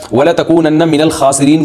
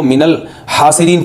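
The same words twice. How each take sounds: First: الْخَاسِرِينَ with a rough throaty kh, as the correct word; the right reading, الْخَاسِرِينَ with a guttural kh; correct Quranic reading. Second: الْحَاسِرِينَ with a breathy ح in place of خ; mistaken reading. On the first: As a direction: recite الْخَاسِرِينَ with the scraped خ sound. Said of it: "کسی قاری نے غلطی سے پڑھ لیا". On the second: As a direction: show the slip, الْحَاسِرِينَ said with a smooth ح. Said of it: "کو ... پڑھ لیا". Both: Shown as a demonstration.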